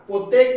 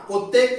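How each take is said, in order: No difference in how they are said.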